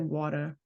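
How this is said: The word is said with a New York accent. "but like in New York is like water or something"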